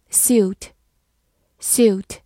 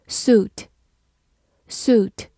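First: "suit" with a Y glide, like "syoot"; "suit" pronounced "s-yoot" in one syllable; alternative pronunciation. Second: "Suit" with no Y glide, like "soot" with a long oo; "Suit" with a plain long oo after the S; first pronunciation. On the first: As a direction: say "suit" with "you" after the S. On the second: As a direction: say "Suit" as "soo-t" in one syllable. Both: Shown as a demonstration. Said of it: "或者读作suit".

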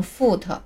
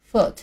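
First: "foot" as "fu-te", long tense vowel and an added final syllable; wrong pronunciation. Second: "foot" with a short lax vowel and barely released t; correct light ending. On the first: Teacher warns against the mistake, "foot" misread as "fu-te". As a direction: drag "foot" out into two syllables, "fu-te". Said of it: "千万别念成foot啊". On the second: Teacher reads it again for learners, short "foot" with light t. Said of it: "而且尾音要轻一些". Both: Shown as a demonstration.

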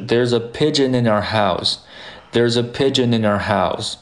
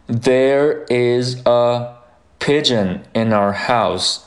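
First: "There's a pigeon in our house" run together smoothly; connected teacher model, "our" reduced in "There's a pigeon in our house"; linked speech. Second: Slow, separated words in "there is a Pigeon in our house"; careful unlinked teacher reading. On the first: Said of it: "这是一个连读". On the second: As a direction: give each word of "there is a Pigeon in our house" its full form, slowly. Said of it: "那么第一句就是". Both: Shown as a demonstration.

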